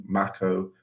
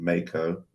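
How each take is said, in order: First: Mako said MACK-oh; short-A Mako. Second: Mako said MAY-koh; long-A Mako. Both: Shown as a demonstration. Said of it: "I think Mako and Mako".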